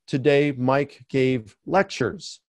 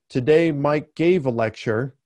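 First: Slow, deliberate reading of the plural; slower example read. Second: Said in the usual way. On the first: Shown as a demonstration. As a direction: spell out the word lectures slowly and clearly. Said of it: "you could say". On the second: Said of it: "So instead of saying".

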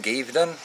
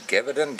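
First: Geverton clipped to KIV-den, two syllables, rising; second go at Geverton, KIV-den; second name try. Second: Geverton said as KEB-er-den, hard K, three syllables; trying out how to say Geverton; unsure name try. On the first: Vlogger re-tries a viewer's name, Geverton as KIV-den. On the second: First shot at a viewer's name, Geverton as KEB-er-den. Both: Shown as a demonstration. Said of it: "I think that's how it's said".

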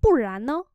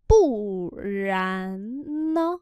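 First: Said in the usual way. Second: Bù rán nơ read slowly; slow demo. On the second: Shown as a demonstration. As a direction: stretch Bù rán nơ. (đọc chậm Bù rán nơ) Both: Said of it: "Nếu không thì sao?".

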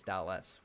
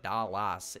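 First: Said in the usual way. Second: "Dallas" said as it is spelt, dal-LASS; "Dallas" with a full, open A in the ending; spelling pronunciation. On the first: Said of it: "if it's Dallas". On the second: Shown as a demonstration. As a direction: stretch the second syllable of "Dallas" into a full "lass". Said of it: "Why would you spell it".

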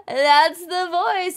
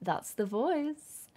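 First: Delighted realization; excited. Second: Said in the usual way. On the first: Shown as a demonstration. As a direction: gasp then higher That's the voice.

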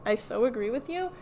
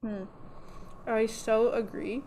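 First: Said in the usual way. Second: Talking around a needle in the mouth; mumbled through a needle held in the lips. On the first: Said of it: "Sorry, there's a needle in my mouth". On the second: Real, not acted. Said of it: "there's a needle in my mouth".

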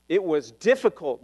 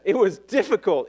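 First: Said in the usual way. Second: "It was difficult" said again, a bit louder and firmer; insistent restatement; emphatic repeat. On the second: Real, not acted. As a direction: drive "difficult" home. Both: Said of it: "Let me say that".

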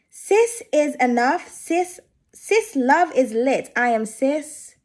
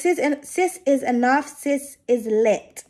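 First: Much slower, every word of the card spelled out deliberately; careful slow reread. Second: Slow read of the card text, stumbling on "Sis"; halting first read. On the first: Tarot reader carefully rereading the card for viewers, very slow. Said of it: "written in, like, an American twang". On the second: Tarot reader tripping over the card text, halting and slow. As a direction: sound out the card's words haltingly, tripping at the start. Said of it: "I don't know why I can't read today". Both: Real, not acted.

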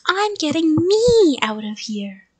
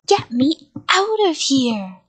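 First: Loud, high, stretched ME; shout stressing ME. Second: Slow, loud drawn-out shout. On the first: Child pounding the door at the monster, ME stressed. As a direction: shout it back, hitting ME hard. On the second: Monster stuck in his costume to the child, shouted. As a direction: shout with OUT stretched long. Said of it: "he shouted". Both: A narrator's reading.

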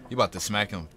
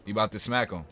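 No difference in how they are said.

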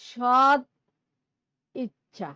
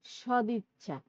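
First: সদ punched loud, then ইচ্ছা apart; split wrong pronunciation. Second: Said in the usual way. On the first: Shown as a demonstration. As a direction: say সদ and ইচ্ছা as two words. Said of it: "এভাবে বলি না কিন্তু". (সদ ইচ্ছা আলাদা করে ভুল উচ্চারণ) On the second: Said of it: "আমরা কি বলি".

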